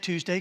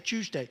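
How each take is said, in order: First: The word begins with a plain 't' sound. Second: The word begins with a 'ch' sound. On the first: "I can't say Tuesday" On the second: "I grew up in Virginia, we have a slang. So I was spelling it with a C H"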